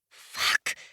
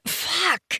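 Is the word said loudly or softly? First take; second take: softly; loudly. First: The word is said softly. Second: The word is said loudly.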